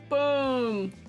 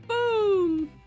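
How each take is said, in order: First: It is said in a lower, deeper voice. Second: It is said in a higher voice.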